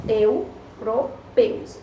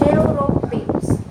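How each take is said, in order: First: "Europeus" very slowly as eu, ro, peus; syllable by syllable. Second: Said in the usual way. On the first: Shown as a demonstration. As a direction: draw out "Europeus" with a break after each syllable. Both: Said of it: "Esse eu aí".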